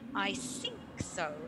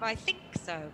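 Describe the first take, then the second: First: Think begins with an s sound. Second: Think begins with a th sound. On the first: The speaker calls it wrong. "produce an unvoiced th as an s" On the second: The speaker calls it right. "instead of"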